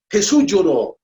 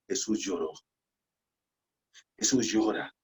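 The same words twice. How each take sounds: First: Louder and higher, ringing out; proclaimed loudly. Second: Much softer, nearly a whisper; hushed. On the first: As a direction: proclaim it to the whole church. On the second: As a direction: let it fall quiet and heavy. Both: Real, not acted. Key verse said twice, hushed then loud.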